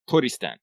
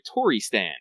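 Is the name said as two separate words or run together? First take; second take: run together; separate. First: It is said quickly, run together. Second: It is said as two separate words. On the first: It sounds like the Japanese pronunciation of Tristan. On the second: A bird fan who stans the bird.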